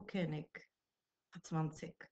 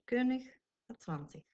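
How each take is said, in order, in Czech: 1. Koncovky se čtou tvrdým k. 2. Koncovky se čtou měkkým ch. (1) "Rakušané ... nečtou moc tu koncovku jako ich, ale spíš jako ik" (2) "ale v německé němčině běžně ich"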